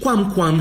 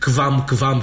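First: The qu is said with a w sound. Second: The qu is said with a v sound. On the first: The speaker calls it right. "ci quam quam și aqua qua" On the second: The speaker calls it wrong. "nu putea fi quam quam și aqua, cum zicem azi"

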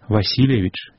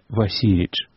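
First: Every sound in the word is pronounced. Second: A middle vowel is swallowed and dropped. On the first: The speaker calls it right. "усе гуки так само повинны быть захованные" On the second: The speaker calls it wrong. "не Васильевич"

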